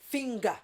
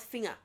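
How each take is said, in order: First: A hard G sound follows the ng. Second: No hard G sound follows the ng. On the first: The speaker calls it right. "we will pronounce what the G sound" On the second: The speaker calls it wrong. "not finger"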